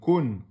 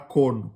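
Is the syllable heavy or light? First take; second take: light; heavy. First: The syllable is light, with a thin u. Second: The syllable is heavy, with an open o. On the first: The speaker calls it right. "kun, c'est pas kon" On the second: The speaker calls it wrong. "c'est pas kon"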